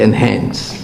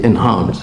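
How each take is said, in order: First: It is said with an American accent. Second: It is said with an Australian accent.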